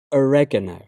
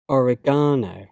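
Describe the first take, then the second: First: "oregano" as o-REG-a-no, stress on the second syllable; American pronunciation. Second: "oregano" as or-eh-GAH-no, stress on the third syllable; British pronunciation. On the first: Teacher trying the American form, American pronunciation. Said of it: "my American pronunciation". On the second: Teacher reading the British form of each pair, British pronunciation. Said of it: "I'm a British English native speaker". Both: Shown as a demonstration.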